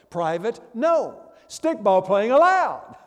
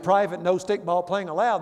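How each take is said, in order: First: The main break comes right after 'no'. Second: The main break comes right after 'private'. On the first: Stickball playing is allowed here. "they would read it this way" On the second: Stickball playing is not allowed here. "instead of reading it that way"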